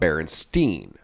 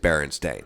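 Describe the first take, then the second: First: The last syllable sounds like 'stine' or 'steen'. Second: The last syllable rhymes with 'stain'. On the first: This is the version people remember. The speaker calls it wrong. "not Berenstein or Stein or whatever" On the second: This is the family's actual name. The speaker calls it right. "It was always Berenstain"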